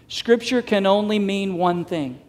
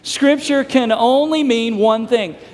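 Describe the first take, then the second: First: It is said at a calmer, quieter level. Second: It is said louder with more enthusiasm.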